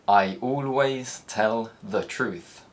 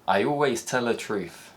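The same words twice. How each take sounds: First: The th in 'the' is clearly pronounced. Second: The th in 'the' turns into l.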